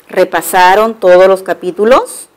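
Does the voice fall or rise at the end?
rises. The voice rises at the end like a question. It asks whether they reviewed the chapters. "una pregunta"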